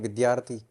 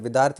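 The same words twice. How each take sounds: First: The word is pronounced in the standard way. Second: The word is pronounced in a colloquial way. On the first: This is the proper form the speaker was taught. The speaker calls it right. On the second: This is how the speaker used to say it. The speaker calls it wrong.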